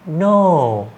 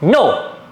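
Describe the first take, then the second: First: It is said softly and flatly. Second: It is said firmly and sharply.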